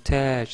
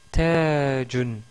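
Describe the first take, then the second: First: The word stops short without the -un ending. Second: The word ends with the full -un ending.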